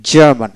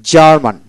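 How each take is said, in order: Both takes have the same delivery.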